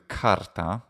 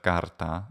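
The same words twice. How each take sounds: First: The first consonant has a puff of breath. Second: The first consonant has no puff of breath. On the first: "if I can do carta instead of carta" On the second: "instead of carta"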